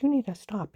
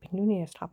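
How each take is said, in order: First: "You" hit first and hardest, the rest falling away; warning him to stop, pointing at him with "You"; stress on you. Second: "need" carries the weight, "you" passes lightly; repeating the warning, insisting on "need"; stress on need. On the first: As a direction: lean on "You" in "You need to stop". Repeated warning, stress shifts. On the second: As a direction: press on "need" in "you need to stop". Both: Retold or imitated.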